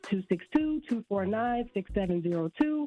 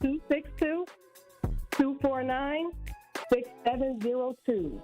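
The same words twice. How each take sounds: First: The number is said fast. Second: The number is said slowly.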